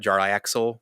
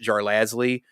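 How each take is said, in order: First: The name ends with an 'axel' sound. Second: The name ends with a 'lasley' sound. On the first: Others say it this way. The speaker calls it wrong. "now people apparently try to call it Jar Axel" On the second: The speaker says it this way. The speaker calls it right. "But I pronounce it Jar Lasley"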